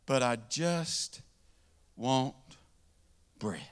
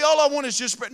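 First: Slow, soft, word by word; drawn-out plea. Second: Said in the usual way. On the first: Acted. Hungry man to the bread store guy, slow and soft. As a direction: stretch each word, worn out.

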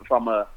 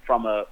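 The two takes are said the same way.

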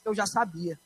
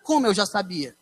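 First: Said softly, falling away: eu já sabia; hushed mother's confession; mother softly admits she knew; mother's quiet reply. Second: Como eu já sabia asked back in disbelief; baffled repeat of her words; puzzled echo. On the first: Retold or imitated. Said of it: "ela pegou e disse". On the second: Real, not acted. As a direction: son echoes mother, confused. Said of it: "agora é que eu não tô entendendo nada".

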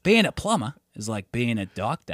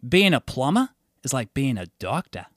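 First: Put-on lightly done Australian accent. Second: A light Australian voice, said matter-of-fact; a hint of an Aussie plumber's pride; Australian accent. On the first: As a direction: say it like an Aussie mate. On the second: An Aussie plumber telling him about his job, a light Australian accent. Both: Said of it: "your Australian accent got really good".

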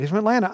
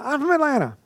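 First: Said in the usual way. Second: Much higher, thrilled exclamation; excited. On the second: Retold or imitated. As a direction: burst out with happy surprise. He's from Atlanta.

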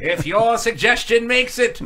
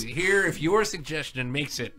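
First: Slow, grand announcer parody; mock announcer. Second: Quiet. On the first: Co-host repeating the tease to get laughs, slow announcer voice. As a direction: proclaim it like a TV narrator. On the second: Shown as a demonstration. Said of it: "repeats line differently".

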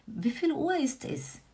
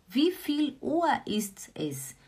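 First: Said in the usual way. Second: Slow whispered repeat. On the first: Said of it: "teacher repeats the phrase". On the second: Shown as a demonstration. Teacher whispering the phrase to her students. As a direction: breathe the question out without voice. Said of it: "teacher repeats phrase whispered".

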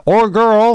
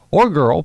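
First: Put-on GIRL pitched high and louder; pointed interjection. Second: Put-on "girl" more modestly stressed, pitched slightly up; conceding echo. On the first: Vixen corrects Blitzen's "new guy", pointed interjection on "girl". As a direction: cut in with "or girl", high and emphatic. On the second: Blitzen accepts Vixen's correction, conceding "or girl". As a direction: repeat "or girl" as a mild concession. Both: A narrator's reading.

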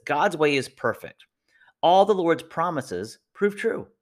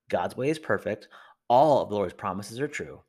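First: Slow, lifted reading of the verse; scripture reading. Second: Said in the usual way. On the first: Shown as a demonstration. Pastor reading a verse to listeners, slow and solemn. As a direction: reads the verse slowly and with weight. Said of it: "It says this". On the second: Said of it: "Don't give up".

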